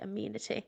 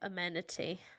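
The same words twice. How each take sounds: First: It is said with a British pronunciation. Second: It is said with an American pronunciation. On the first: "British people say it amenity" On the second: "Americans say it amenity"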